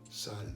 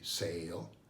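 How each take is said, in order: First: The vowel is a Spanish open A sound. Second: The vowel is the English long A sound. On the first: "you put an A, and it would be sal" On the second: "In English would be sale"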